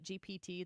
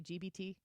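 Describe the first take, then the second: First: The middle letter is said as P. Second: The middle letter is said as B. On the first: "when people say Chat G P T" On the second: "they say G B T? They say B"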